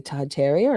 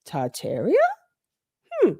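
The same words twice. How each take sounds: First: Said in the usual way. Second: Puzzled echo. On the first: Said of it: "and saying". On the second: Retold or imitated. Her brain reacting to a friend's tip, puzzled. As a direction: turn the word over as a puzzled question. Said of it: "And my brain went".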